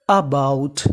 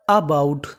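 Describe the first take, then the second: No difference in how they are said.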